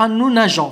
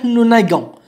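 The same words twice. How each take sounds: First: NAGEONS with a soft "zh" sound for the g. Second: NAGONS with a hard g as in "go". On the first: Teacher shows the wanted form, soft g in nageons. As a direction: say "nageons" with g as French j. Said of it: "ونحن نريد أن تنطق". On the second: Teacher drops the e to show the error, hard g in nagons. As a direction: say "nagons" with "ga" in the middle. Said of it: "إذا حذفنا الأو فستصبح". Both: Shown as a demonstration.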